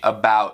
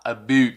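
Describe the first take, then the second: First: It is said with an American vowel. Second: It is said with a Scottish vowel. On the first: "em vez de about" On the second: "ele fala about"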